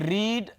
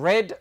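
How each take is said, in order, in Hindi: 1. स्वर लंबा है, 'reed' जैसा। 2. स्वर छोटा है, 'red' जैसा।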